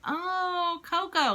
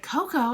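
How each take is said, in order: First: High, drawn-out sudden understanding; dawning realization. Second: Louder, higher puzzled repeat; puzzled echo. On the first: Mum spotting the statue her son meant, dawning realization. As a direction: let the penny drop, pitched high. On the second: Mum searching for what her son means, puzzled echo. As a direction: echo the word back, baffled. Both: Retold or imitated.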